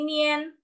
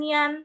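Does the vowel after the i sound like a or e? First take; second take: e; a. First: The vowel after the i sounds like e. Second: The vowel after the i sounds like a. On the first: The speaker calls it right. "tapi nien" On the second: The speaker calls it wrong. "kalian bacanya bukan nian"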